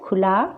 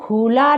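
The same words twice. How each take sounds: First: The first vowel is short and light. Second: The first vowel is drawn out and heavy. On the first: The speaker calls it right. "इस पर भी कम वजन दिया जा रहा है" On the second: The speaker calls it wrong. "हम इसको खुला नहीं पढ़ रहे हैं"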